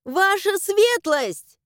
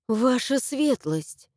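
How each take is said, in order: First: High, drawn-out holler; loud summons to someone hidden; yelled call. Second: Slow, relieved address; relieved exhale. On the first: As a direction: shout it through the house. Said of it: "начала орать благим матом". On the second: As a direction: breathe it out in relief. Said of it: "выдохнула с облегчением". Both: A narrator's reading.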